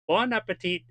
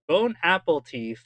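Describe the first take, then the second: First: It is said with a French-style nasal 'bon'. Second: It is said like English 'bone apple teeth'. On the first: The speaker calls it right. "is French" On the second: The speaker calls it wrong. "is English"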